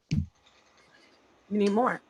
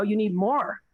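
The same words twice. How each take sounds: First: Slow, drawn out. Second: Said in the usual way. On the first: Shown as a demonstration. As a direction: drag out "more" to drive it home.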